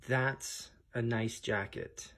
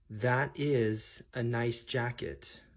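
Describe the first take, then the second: First: The verb is contracted into one short syllable. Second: The verb is said in full as two words.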